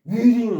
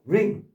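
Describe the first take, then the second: First: The word begins with a W sound. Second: The word begins directly with an R sound. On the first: The speaker calls it wrong. "위링 하면 안 돼" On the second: The speaker calls it right. "W 발음하지 마세요. 자신 있게. 그냥 ring"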